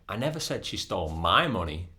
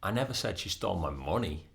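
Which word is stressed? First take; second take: my; money. First: The word 'my' carries the main stress. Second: The word 'money' carries the main stress. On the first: She stole someone else's money. "That might mean that she stole somebody else's money" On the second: She stole something other than the money. "That might mean that she stole something different, not the money"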